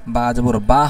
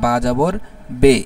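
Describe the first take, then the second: First: The final syllable ends in an 'a' vowel. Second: The final syllable ends in an 'e' vowel. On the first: The speaker calls it right. "যেমন বা জবর বা হয়" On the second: The speaker calls it wrong. "আমি উচ্চারণ শিখলাম বা জবর বে"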